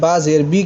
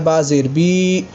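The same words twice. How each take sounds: First: The final vowel is short and plain. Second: The final vowel is drawn out long. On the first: The speaker calls it right. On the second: The speaker calls it wrong.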